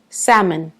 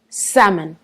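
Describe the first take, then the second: The two takes are said the same way.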